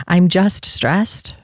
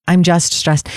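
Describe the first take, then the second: First: Dismissive repeat. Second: Said in the usual way. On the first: Shown as a demonstration.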